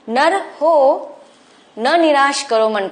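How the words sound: The line is read with a pause after 'nar ho'. "विराम चिन्ह लगाने के बाद"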